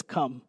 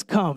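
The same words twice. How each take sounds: First: Low, soft single word come; soft invitation. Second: Said in the usual way. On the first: Shown as a demonstration. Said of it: "where Jesus just says". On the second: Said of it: "He just says".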